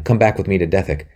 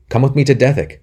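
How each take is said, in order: First: Said in the usual way. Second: Pressed higher and louder, with stress on to; urging. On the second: A narrator's reading. Anthony presses Robin to come, urgent and louder. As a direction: insist on it this time. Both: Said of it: "said Anthony again".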